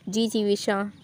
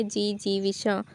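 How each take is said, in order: First: Said in the usual way. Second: जी Jivisha slowed down and softer, each syllable clear; slow, careful. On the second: Shown as a demonstration. Teacher repeating the word slowly so students catch it. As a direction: say जी Jivisha slowly and softly to show the spelling. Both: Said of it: "तो जी क्या है".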